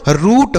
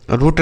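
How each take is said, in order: First: रूट with a long oo; correct long oo. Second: रूट with a short, quick u; wrong short u. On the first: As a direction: stretch the vowel of रूट. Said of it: "रूट होता है". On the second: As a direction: cut the vowel of रूट short, like "rut". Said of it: "रूट नहीं होता बच्चों". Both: Shown as a demonstration.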